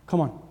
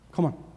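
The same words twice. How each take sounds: The two takes are said the same way.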